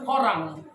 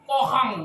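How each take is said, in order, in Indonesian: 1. Huruf tengahnya bunyi 'r'. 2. Huruf tengahnya bunyi 'h'. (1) "Enggak bisa bilang korang" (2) "kohang kata"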